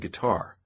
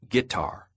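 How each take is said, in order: First: The word is said in a standard accent. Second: The word is said in a Southern accent. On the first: "Down south, they don't say guitar" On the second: "They say guitar"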